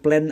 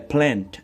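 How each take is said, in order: First: The final d sound is dropped. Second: The final d sound is clearly pronounced. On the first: The speaker calls it wrong. "Jangan plan aja" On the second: The speaker calls it right. "ada D-nya ujungnya"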